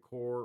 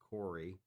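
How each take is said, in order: First: The name is said as one syllable. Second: The name is said as two syllables. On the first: This is the speaker's own way of saying it. "or your Core" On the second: This is how the makers say it. "or as they pronounce it"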